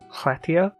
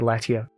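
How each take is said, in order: First: The word begins with a breathy, hissed L sound. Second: The word begins with a plain L sound. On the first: The speaker calls it right. "but it's like Hletia" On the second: The speaker calls it wrong. "I'm guessing most people say Letia"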